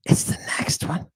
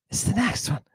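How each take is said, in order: First: Whisper. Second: Said in the usual way. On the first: Acted. Repeats line under breath.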